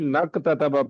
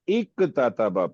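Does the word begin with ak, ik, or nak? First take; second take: nak; ik. First: The word starts with a linked 'n' sound. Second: The word starts with an 'i' vowel. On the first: It is joined to the word before. "मिला के नक ततबा पढ़ेंगे" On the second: It is read on its own. "या इक ततबा पढ़े"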